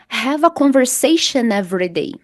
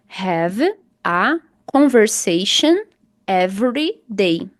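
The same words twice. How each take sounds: First: Conversation runs smoothly into every without a break. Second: Conversation and every are said as separate words. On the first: The speaker calls it right. "você vai juntar conversation, né? Every" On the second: The speaker calls it wrong. "Se você não juntar, vai ficar assim"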